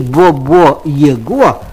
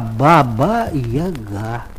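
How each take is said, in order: First: The vowels are all said as O. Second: The vowels are all said as A. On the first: The speaker calls it wrong. "во всех словах он говорил вместо А – О" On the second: The speaker calls it right. "а Баба-Яга"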